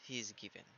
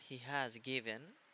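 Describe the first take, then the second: First: The word has is contracted to a z sound. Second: The word has is said in full. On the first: "es he's given, ¿ok? Porque así se habla como normalmente" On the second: "en vez de decir he has given"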